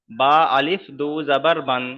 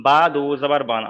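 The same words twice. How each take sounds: First: Reading the silent alif; বা আলিফ দু জাবার বান with the alif sounded aloud; wrong reading. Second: Alif left silent, বা দু জাবার বান said straight through; correct reading. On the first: Teacher shows the wrong way, sounding the alif. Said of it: "এখানে এরকম বলবো না". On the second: Teacher shows students the right reading, alif silent. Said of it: "এখানে বলবো". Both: Shown as a demonstration.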